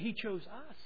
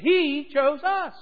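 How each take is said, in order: First: The word 'us' carries the stress. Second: The word 'He' carries the stress. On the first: They are the ones who were chosen. "We are the object of His choosing" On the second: It was God who did the choosing. "That's good news"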